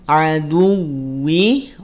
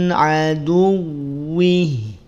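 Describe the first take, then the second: No difference in how they are said.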